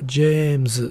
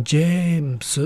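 First: "James" very slowly with a long pure e, ending zu. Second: "James" very slowly as jee-mu-su, with e as in "jem" held long; long E, S ending. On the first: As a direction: hold the e of "jem" in "James", finish on a buzzed zu. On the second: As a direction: hold a pure e in "James", finish on su. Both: Shown as a demonstration. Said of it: "then you've got a choice".

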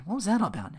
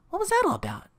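First: Puzzled question, moderately raised pitch; Larry. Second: Very high imitation of a puzzled woman; Rita's voice. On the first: Retold or imitated. Larry asking about Phil leaving, puzzled. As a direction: redo it as the cameraman, pitched up only partway. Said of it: "that's, uh, Larry's line". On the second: Rita puzzled as Phil leaves, very high voice. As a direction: ask it pitched far up. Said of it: "sorry, that's, uh, Larry's line".

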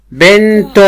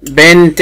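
First: بنت voweled as bintun; voweled ending. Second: بنت with a still, released final t; sukun ending. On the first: Teacher contrasting endings for a pupil, بنت as bintun. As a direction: sound the "-tun" at the end of بنت. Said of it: "يعني سواء مشكلة". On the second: Teacher confirming the pupil's sukun, بنت as bint. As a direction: stop بنت on the t, no vowel. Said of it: "طب س-، سكنيها". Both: Shown as a demonstration.

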